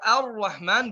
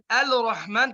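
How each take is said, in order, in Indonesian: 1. Tidak ada bunyi 'l' yang terdengar sebelum 'r'. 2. Bunyi 'l' terdengar sebelum 'r'. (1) "jadi kita baca ar-Rahman" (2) "bukan al-Rahman"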